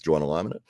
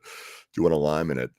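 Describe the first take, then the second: First: The words run together in an Australian accent. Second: The words are said separately and clearly.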